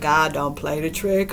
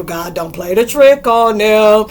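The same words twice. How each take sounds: First: Said in the usual way. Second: Higher, louder, slow preacher proclamation; louder, slowed rebuke of the demons; exorcist believer. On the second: Retold or imitated. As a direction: declare it like a fired-up exorcist. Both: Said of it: "made me feel like I was an exorcist believer".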